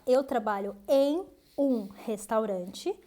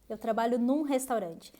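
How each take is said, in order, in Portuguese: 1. A preposição e o artigo são falados separadamente. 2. A preposição e o artigo se juntam em uma só sílaba. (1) "você pode falar" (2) "como os nativos falam"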